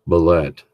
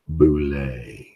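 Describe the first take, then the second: First: The word ends with a 'let' sound. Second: The word ends with a 'lay' sound. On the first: The speaker calls it wrong. "their bullet, which, as we all know, is wrong" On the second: The speaker calls it right. "they can't even figure out it's Boulay"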